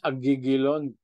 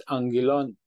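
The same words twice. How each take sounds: First: Agigilon with both g sounds hard, spelled out letter by letter; literal reading. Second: Angelon with a nasal ng before the g; angelon, proper ng sound; correct reading. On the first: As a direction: read agigilon the literal way, g for each gamma. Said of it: "Kung literal talaga". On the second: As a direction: say angelon, the double gamma as ng. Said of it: "hindi siya pinopronounce sa double G na agigilon". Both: Shown as a demonstration.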